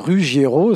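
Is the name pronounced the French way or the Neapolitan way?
French. The name has a French pronunciation. "en français, on dit Ruggiero, ça passe aussi"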